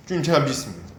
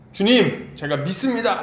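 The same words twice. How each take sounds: First: Said in the usual way. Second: Half-raised cry of faith; mild mock shout. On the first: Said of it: "이렇게 얘기를 하는 거죠". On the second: Preacher imitating the father crying out belief, mildly raised. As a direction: call out to the Lord, only moderately raised. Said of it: "갑자기 소리를 지릅니다".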